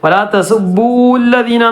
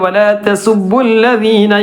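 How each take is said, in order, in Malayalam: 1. 'lladhina' ക്ക് മുമ്പുള്ള സ്വരം നീട്ടി ദീർഘമായി ഉച്ചരിക്കുന്നു. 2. 'lladhina' ക്ക് മുമ്പുള്ള സ്വരം ഹ്രസ്വമായി നിലനിർത്തുന്നു. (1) "എന്ന് വായിക്കരുത്" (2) "അത് നീട്ടാതെയാണ് ഓതേണ്ടത്"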